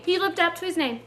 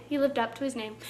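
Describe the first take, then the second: First: Said in the usual way. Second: Softer, lower muttered echo; quiet repeat. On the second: Shown as a demonstration. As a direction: say it again under your breath.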